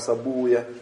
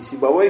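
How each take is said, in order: First: The name ends in an '-uya' sound. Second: The name ends in a '-vey' sound. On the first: This is how hadith scholars read it, avoiding 'vey'. "а сабуя" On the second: This is how linguists read it. "Не сибавей их читали"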